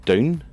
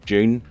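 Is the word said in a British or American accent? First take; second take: British; British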